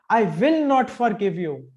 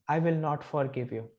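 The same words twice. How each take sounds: First: It is said expressively with varied pitch. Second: It is said flatly with little pitch variation. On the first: The speaker calls it right. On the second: The speaker calls it wrong.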